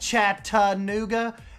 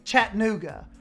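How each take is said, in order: First: The 'ta' syllable is clearly pronounced. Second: The 'ta' syllable is dropped. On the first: This is how outsiders say it. The speaker calls it wrong. "They don't do the ta, like" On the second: This is how locals say it. The speaker calls it right. "If you're from there, they just say"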